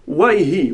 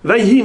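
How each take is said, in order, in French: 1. Le mot commence par un son W. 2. Le mot commence par un son V.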